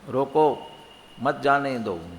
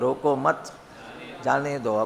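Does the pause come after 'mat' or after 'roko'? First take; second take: after roko; after mat. First: There is a pause right after roko. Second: There is a pause right after mat. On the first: Stop them; do not let them go. "रोको, यहाँ यदि आप रुकते हो, अब मत जाने दो" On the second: Do not stop them; let them go. "रोको मत, अब यहाँ जाके आप रुके, जाने दो"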